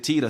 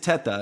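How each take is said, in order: First: The name has an anglicized pronunciation. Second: The name has its original Italian pronunciation. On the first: This is the form adopted after emigrating. "my parents and when we came over changed it to Tita" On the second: This is the family's original name. "the correct pronunciation actually is Teta, because I am Italian"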